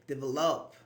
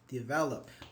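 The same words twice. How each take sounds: First: The stress is not on the middle syllable. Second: The stress is on the middle syllable. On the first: The speaker calls it wrong. "I don't say develop" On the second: The speaker calls it right. "the stress on the V here. It's in the middle"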